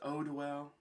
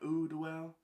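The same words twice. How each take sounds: First: Eau is said as in eau de parfum. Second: Eau is not said as in eau de parfum. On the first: The speaker calls it right. "just like Eau de Parfum" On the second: The speaker calls it wrong. "They told me that I was pronouncing it wrong"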